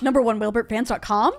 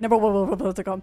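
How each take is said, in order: First: It is said fast. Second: It is said even faster.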